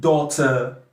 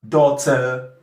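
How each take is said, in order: The two takes are said the same way.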